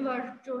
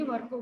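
First: वर्चो said with a ch sound, as the wrong version; teacher demos वर्चो with ch, the way not to say it; wrong pronunciation. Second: वर्को said with a hard k sound; teacher models वर्को with k, the right way; correct pronunciation. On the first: Teacher showing a student the wrong way, वर्चो with ch. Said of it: "वर्चो नहीं बोलेंगे". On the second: Teacher correcting a student's pronunciation, वर्को with hard k. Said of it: "वर्को बोलेंगे". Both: Shown as a demonstration.

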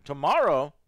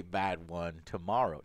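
First: Surprised. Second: Said in the usual way. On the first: Real, not acted. Echo of tomorrow, louder.

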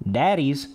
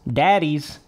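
The two takes are said the same way.

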